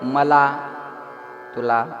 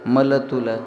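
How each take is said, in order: First: The words are said in the standard Pune form. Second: The words are said in the local clipped form. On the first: "पुण्याकडे जर गेला तर ... standard असतं बोलणं" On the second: "तिकडं आपल्या इकडं मल तुलं म्हणतात ना"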